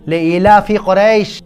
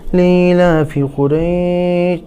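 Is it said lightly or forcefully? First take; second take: forcefully; lightly. First: It is said forcefully, with weight. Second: It is said lightly and casually.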